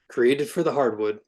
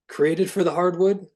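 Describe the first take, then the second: First: It is read plainly, without attitude. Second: It is read with a lot of attitude.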